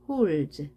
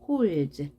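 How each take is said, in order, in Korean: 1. 마지막 d와 s는 합쳐서 하나의 z 소리가 됩니다. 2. 마지막 d와 s는 합쳐서 하나의 z 소리가 됩니다.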